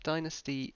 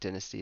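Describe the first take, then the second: First: It is said with an American pronunciation. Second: It is said with a British pronunciation. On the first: "I think dynasty is more of an American pronunciation" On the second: "I think dynasty is the typical U K pronunciation"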